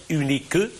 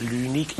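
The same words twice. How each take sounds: First: "unique que" ending in a sounded E syllable; final E pronounced. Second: Said in the usual way. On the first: Shown as a demonstration. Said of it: "il est prononcé". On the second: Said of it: "pardon, il est prononcé".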